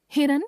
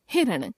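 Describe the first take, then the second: First: हिरण ending on dental n; tongue on the teeth to end हिरण; mispronounced nasal. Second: Said in the usual way. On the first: Shown as a demonstration. Teacher showing a common error, हिरण with dental n. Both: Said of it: "नासिक्य व्यंजन संबंधी अशुद्धियां".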